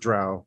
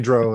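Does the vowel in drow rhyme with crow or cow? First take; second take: cow; crow. First: The vowel rhymes with cow. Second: The vowel rhymes with crow. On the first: "everybody else says drow" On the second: "I say drow, ... but it's like crow"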